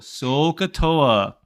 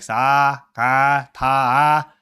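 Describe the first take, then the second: First: The vowels are full and the last is 'toa'. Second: The vowels are flattened and the last is 'ta'. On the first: The speaker calls it right. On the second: The speaker calls it wrong. "I remember one student, she's like"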